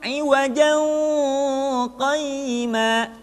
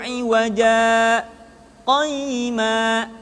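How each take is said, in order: First: The two words are joined with an n sound. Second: A brief stop without breath separates the words. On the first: The speaker calls it wrong. "tidak boleh disambung" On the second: The speaker calls it right. "disaktah dulu, berhenti tapi tanpa bernafas"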